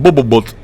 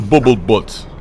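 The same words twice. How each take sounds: First: It is said in the speaker's plain accent. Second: It is said in a put-on Russian accent.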